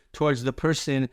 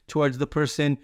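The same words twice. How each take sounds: The two takes are said the same way.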